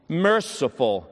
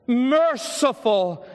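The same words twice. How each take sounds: First: Said in the usual way. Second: Much higher, very slow, stretched word with a long fall; drawn-out earnest plea. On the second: Retold or imitated. Dying boy echoing merciful, high and stretched out. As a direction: pour the whole soul into merciful. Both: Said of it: "loud and full and most intense with earnestness".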